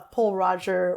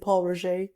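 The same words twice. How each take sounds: First: The name is said with an English accent. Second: The name is said with a French accent.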